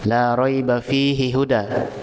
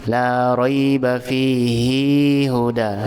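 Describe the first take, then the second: First: The final vowel of fihi is kept short. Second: The final vowel of fihi is held long. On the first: "Hihu, hihu, langsung, tidak panjang" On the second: "Dibaca dua harokat"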